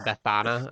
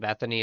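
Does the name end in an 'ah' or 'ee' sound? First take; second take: ah; ee. First: The name ends in an 'ah' sound. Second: The name ends in an 'ee' sound. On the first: The speaker calls it right. "It's actually Bethana" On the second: The speaker calls it wrong. "I actually said it wrong earlier today. I said Bethany"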